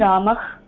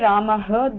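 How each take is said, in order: First: The word ends with a soft release of breath. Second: The word ends with an added full 'ha' syllable. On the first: The speaker calls it right. "just know that it has to be Ramah" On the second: The speaker calls it wrong. "then that is technically wrong"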